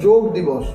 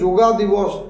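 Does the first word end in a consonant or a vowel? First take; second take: consonant; vowel. First: The first word ends in a consonant. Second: The first word ends in an added 'a' vowel. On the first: The speaker calls it right. "এটি কিন্তু যোগ দিবস" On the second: The speaker calls it wrong. "এটা কিন্তু একটি বিরাট ভুল"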